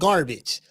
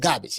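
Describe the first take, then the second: First: The R sound after the first vowel is heard. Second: The R sound after the first vowel is dropped. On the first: The speaker calls it wrong. "It's not garbage" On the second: The speaker calls it right. "You don't hear the R"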